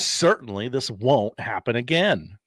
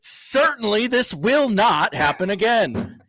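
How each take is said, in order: First: The tone sounds unconvincing and doubtful. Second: The tone sounds firm and sincere. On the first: The speaker does not really believe it. The speaker calls it wrong. "It's how you said it. It's the tone" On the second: The speaker truly believes it. The speaker calls it right. "Say it like you mean it"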